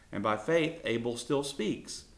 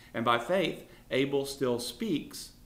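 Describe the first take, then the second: No difference in how they are said.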